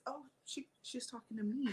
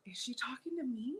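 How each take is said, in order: First: Very soft, hesitant aside; retold dawning realization. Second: Higher, softer question to oneself; retold puzzled thought. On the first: Retelling her thought after looking around, soft realization. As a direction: realize it quietly, a little baffled. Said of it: "looked around and didn't see anybody else and realized". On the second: Retelling her reaction to the greeting, puzzled aside. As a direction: wonder privately, voice rising at the end. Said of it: "I remember thinking".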